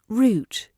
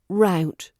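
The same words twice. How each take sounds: First: It is said with a British accent. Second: It is said with an American accent. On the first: "In British English we say route" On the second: "In the U S they tend to say route"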